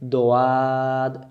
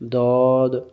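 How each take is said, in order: First: The letter is light, with an open mouth. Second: The letter is heavy, with rounded lips. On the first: The speaker calls it wrong. "মুখটা ফাঁকা হয়ে গেল" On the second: The speaker calls it right. "মুখটা একবারে দেখেন গোলেই আছে"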